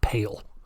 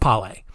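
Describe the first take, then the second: First: It is said like the English word pale. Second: It is said unlike the English word pale. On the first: The speaker calls it wrong. "I'm pretty sure it's not Pale" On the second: The speaker calls it right. "I think it's Pale"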